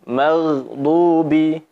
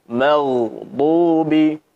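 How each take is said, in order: No difference in how they are said.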